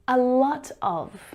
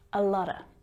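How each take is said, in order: First: Each word is pronounced fully and separately. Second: The words blend into one reduced form. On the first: "A lot of becomes a lotta" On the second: "becomes a lotta"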